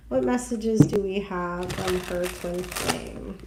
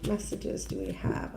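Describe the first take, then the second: First: Said in the usual way. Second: Whispered, voiceless repeat. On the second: Real, not acted. Reader whispering her question to the cards, voiceless. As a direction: breathe the question to yourself.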